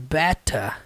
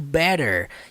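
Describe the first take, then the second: First: The t is crisp and fully pronounced. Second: The t is soft, like a quick d. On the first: "é pronunciado better" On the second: "Não é pronunciado better, igual o inglês americano"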